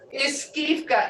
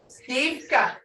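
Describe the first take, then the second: First: The word begins with an extra i syllable. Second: The word begins directly with the s sound. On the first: It is the full form of the word. "But we don't say iskivka" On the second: It is the everyday spoken form. "We'll say skivka"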